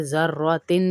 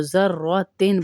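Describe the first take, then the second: First: ज़र्रतिन with the तिन hummed through the nose; wrong nasal ending. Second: Sung, ज़र्रतिन with the तिन left clear, no ghunna; sung, say ज़र्रतिन without nasalising the ending; no nasal hum. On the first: Teacher showing the wrong ज़र्रतिन, with ghunna. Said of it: "नहीं पढ़ेंगे". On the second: Sung, teacher showing the right ज़र्रतिन, no ghunna. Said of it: "तो ज़र्रतिन पढ़ेंगे". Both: Shown as a demonstration.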